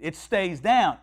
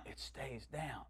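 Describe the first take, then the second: First: Said in the usual way. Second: Very soft, low feeble echo; weak repeating. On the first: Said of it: "Repeat after me". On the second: Retold or imitated. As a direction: imitate a sick woman barely managing the words. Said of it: "So she".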